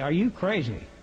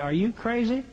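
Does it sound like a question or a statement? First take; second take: statement; question. First: It is said as a statement. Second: It is said as a question.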